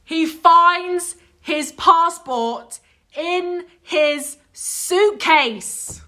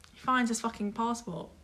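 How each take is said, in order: First: Very slow, high, loud, word by word; outraged emphasis. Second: Much softer, deadpan punchline; understated reveal. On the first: Friend revealing where the passport was, slow outraged disbelief. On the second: Friend revealing the found passport, quietly fed up. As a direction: drop the volume for the reveal. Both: Real, not acted.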